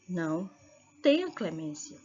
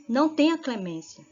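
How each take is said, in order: First: "Não" low and alone, pause, then "tenha clemência"; pause after NÃO. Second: "Não tenha clemência" run together as one command; no pause. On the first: Teacher showing how a comma saves, pausing after a low "Não". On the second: Teacher showing condemnation, "Não tenha clemência" without a break. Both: Shown as a demonstration. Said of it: "A vírgula pode".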